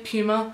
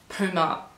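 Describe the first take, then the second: First: The first syllable does not sound like 'poo'. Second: The first syllable sounds like 'poo'. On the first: The speaker calls it right. "I say Puma" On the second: The speaker calls it wrong. "Puma sounds like poo"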